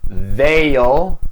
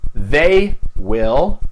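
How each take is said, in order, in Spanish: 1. 'Will' se acorta y se une al pronombre. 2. 'Will' se dice como una palabra completa y separada.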